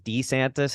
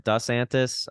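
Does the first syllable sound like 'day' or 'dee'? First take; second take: dee; day. First: The first syllable sounds like 'dee'. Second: The first syllable sounds like 'deh' or 'day'. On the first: This fits a name spelled with Di. The speaker calls it wrong. "if it was DeSantis, his name would be spelled D I S A N T I S" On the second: This is the proper Italian way. The speaker calls it right. "If we're going like proper Italian, it would be more DeSantis"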